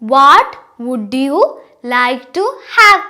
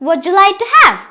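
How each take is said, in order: First: Each word is said fully and separately. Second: The words are reduced and run together. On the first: "ഇത് എഴുതുമ്പോൾ നമ്മൾ" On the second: "ഇത് pronounce ചെയ്യുമ്പോൾ"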